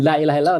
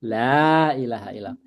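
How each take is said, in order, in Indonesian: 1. Vokal pada kata pertama pendek. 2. Vokal pada kata pertama panjang.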